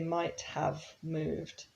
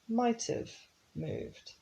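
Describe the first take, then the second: First: The word have is pronounced fully and clearly. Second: The word have is reduced and linked to might. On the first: The speaker calls it wrong. "We don't say might have moved" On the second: The speaker calls it right. "We say might have moved"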